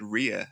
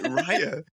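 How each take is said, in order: First: The first syllable sounds like 'ree'. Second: The first syllable sounds like 'rye'. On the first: The speaker calls it wrong. "I'd been calling her in my head" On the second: The speaker calls it right. "Nope. It's like"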